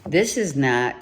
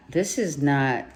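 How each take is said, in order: Both takes have the same delivery.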